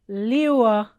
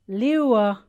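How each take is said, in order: Both takes have the same delivery.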